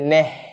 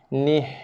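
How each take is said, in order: First: The vowel sounds like 'eh'. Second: The vowel sounds like 'ee'. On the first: The speaker calls it wrong. "Bukannya neh" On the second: The speaker calls it right. "Ni, ha mati"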